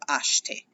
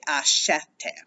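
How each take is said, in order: First: The middle vowel is swallowed and dropped. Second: The middle vowel is clearly pronounced. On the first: "it gets swallowed" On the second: "now you're actually going to pronounce that eh"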